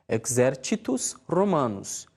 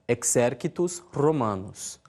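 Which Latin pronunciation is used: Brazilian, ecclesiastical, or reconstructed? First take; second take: ecclesiastical; reconstructed. First: It uses the ecclesiastical Latin pronunciation. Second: It uses the reconstructed classical Latin pronunciation. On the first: "Na pronúncia eclesiástica" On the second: "na pronúncia reconstituída"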